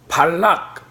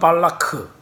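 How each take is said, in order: First: The name ends on a final k consonant. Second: The name ends with an added vowel. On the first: This is the usual Korean reading. "발락의 이름은 발락" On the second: This is the Hebrew pronunciation. "히브리 말로는 발라크"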